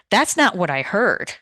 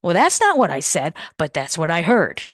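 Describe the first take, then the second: First: "not" stressed in a firm objection. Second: "not what I said" against a punched "heard"; stress on said and heard. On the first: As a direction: push back, leaning on "not". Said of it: "the tone of voice and the emphasis". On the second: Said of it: "emphasis is changing the meaning". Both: Shown as a demonstration.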